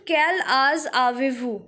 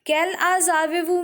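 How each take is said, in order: First: Careful reading. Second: Fast fluent "Quel âge avez-vous?" as a native would say it; quick natural read. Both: Shown as a demonstration. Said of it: "Third question".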